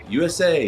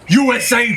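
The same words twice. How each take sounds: First: It is said flatly with little energy. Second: It is said loudly with strained intensity. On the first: The speaker calls it wrong. "you can't say U S A" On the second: The speaker calls it right. "you gotta have a blood vein in your forehead"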